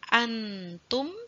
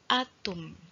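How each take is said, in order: First: The n sound is pronounced fully and clearly. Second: The n sound is left out entirely. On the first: "tidak jelas an" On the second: "tidak jelas masuk langsung atum"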